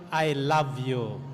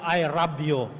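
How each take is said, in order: First: It is said with a standard English accent. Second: It is said with a Japanese accent. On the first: "Pero ang ibig sabihin yon" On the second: "Sa Japan, sasabihin sa iyo"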